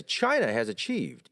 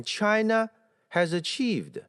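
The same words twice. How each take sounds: First: "China" falling, joined straight on to "has achieved"; correct intonation demo. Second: "China" held high, split by a pause from "has achieved"; wrong intonation demo. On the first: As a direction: stress "China" and let it fall into "has achieved". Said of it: "应该是". (正确示范：China重读下降，连读) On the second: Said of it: "这个不应该读成". (错误示范：China扬起后断开) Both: Shown as a demonstration.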